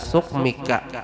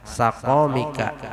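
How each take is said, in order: First: A 'u' vowel follows, then no vowel after 'q'. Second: The first two syllables both have an 'a' vowel. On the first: "boleh bacaan domah habis itu sukun" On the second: "boleh dua fathah keduanya. Boleh sinnya fathah, boleh kopnya fathah"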